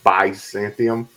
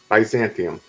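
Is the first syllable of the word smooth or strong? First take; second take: strong; smooth. First: The first syllable is said strongly, with stress. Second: The first syllable is said smoothly, not stressed. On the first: "I made the B-Y strong" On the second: "Instead of making it smooth"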